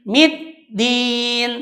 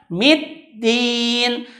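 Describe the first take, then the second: Both takes have the same delivery.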